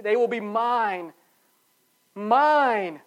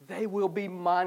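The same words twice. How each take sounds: First: "will" and "Mine" hit hard and slow; emphatic. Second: Said in the usual way. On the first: Shown as a demonstration. Pastor stressing God's claim on his people, emphatic. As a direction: lean on "will" and punch "Mine". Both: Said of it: "It's an emphatic".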